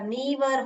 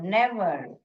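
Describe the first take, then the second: First: The first vowel is a long 'ee' sound. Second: The first vowel is a short 'e' sound. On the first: The speaker calls it wrong. "Long sound ... नीवर हो जाएगा" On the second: The speaker calls it right. "Close syllable में अपना sound निकालेगा"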